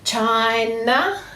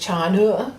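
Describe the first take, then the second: First: The final vowel is a full 'ah' sound. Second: The final vowel is a weak 'uh' sound. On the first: This careful form helps recall the spelling. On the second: This is the everyday way of saying it.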